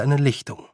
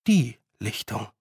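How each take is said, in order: First: Said in the usual way. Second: Weight the article "Die", as the one clearing; stress on DIE. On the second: A narrator's reading. Repeat corrects article for significance. (Betonung auf „Die“, bedeutungsvoll abgesetzt)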